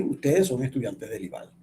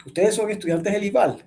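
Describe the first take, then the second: First: "Ustedes son estudiantes del ival" stated lower, falling to the end; statement intonation. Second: "¿Ustedes son estudiantes del ival?" con tono interrogativo, más agudo; entonación de pregunta. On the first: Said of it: "No es lo mismo decir". (entonación de afirmación) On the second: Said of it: "pero la entonación es distinta". (entonación interrogativa) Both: Shown as a demonstration.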